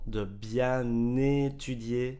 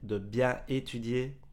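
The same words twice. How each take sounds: First: Bien is linked to étudier with an n sound. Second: Bien and étudier are said with no linking sound.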